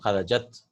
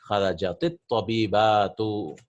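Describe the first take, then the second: First: The word ends in a plain t sound. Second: An i vowel links it to the next word. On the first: "we'll use the singular form" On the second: "because it has alif lam, we'll give a kasra"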